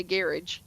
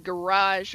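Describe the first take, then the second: First: Garage as GARR-ij, stress up front; "garage" with short second syllable, j ending; Irish-style garage. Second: Garage as guh-RAHZH, stress at the end; "garage" with stressed, long second syllable; American garage. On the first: Shown as a demonstration. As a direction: say garage to rhyme with carriage. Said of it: "changing how I say some of the words". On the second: Retold or imitated. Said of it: "so I gotta say garage".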